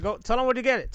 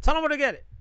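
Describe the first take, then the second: First: Raised nudge, stress on where; first urging call. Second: Louder urging repeat. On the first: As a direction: tell the friend to say it, loudly. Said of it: "Go, tell 'em where to get it". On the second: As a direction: push harder, higher and louder, on where. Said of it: "Tell 'em where to get it". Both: Real, not acted.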